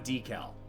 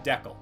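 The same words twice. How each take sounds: First: The word is said the American way. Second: The word is said the Canadian way. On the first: The speaker calls it wrong. "Not a decal" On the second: The speaker calls it right. "In Canada, that's a decal"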